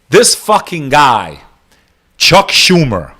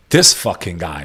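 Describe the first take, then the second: First: Slow and scornful, leaning on "This"; slow disgusted emphasis. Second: Said in the usual way. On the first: Real, not acted. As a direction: drag out "This fucking guy" slowly, each word weighted.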